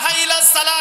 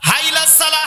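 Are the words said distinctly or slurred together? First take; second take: slurred; slurred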